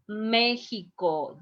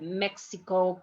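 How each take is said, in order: First: The middle sound is a J-like throat sound. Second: The middle sound is not a J-like sound. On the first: This is how Mexicans say it. "That is the way that Mexicans produce, uh, pronounce Mexico" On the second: This is how it is said in the United States. "You call Mexico when you are in United States"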